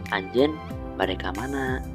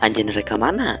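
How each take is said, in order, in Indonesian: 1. Pertanyaan itu memiliki intonasi bahasa Sunda baku. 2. Pertanyaan itu memiliki intonasi khas Ciamis. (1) "Maka bahasa Sunda itu" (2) "anak-anak Ciamis itu akan refleks berintonasi seperti ini"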